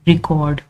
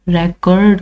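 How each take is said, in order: First: The stress is on the first syllable. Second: The stress is on the second syllable.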